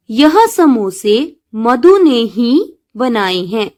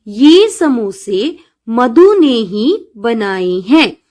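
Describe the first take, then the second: First: Slow, saying यह with a clear stress; textbook's wrong wording. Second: Slow, saying ये instead of यह; corrected wording. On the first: Teacher reading the book's mistake, slow, stressing यह. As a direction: read यह as the book prints it. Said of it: "यह शब्द का प्रयोग ना होकर". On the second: Teacher to children, slow corrected sentence with ये. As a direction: read the corrected ये clearly and slowly. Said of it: "ये शब्द का प्रयोग होगा". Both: Shown as a demonstration.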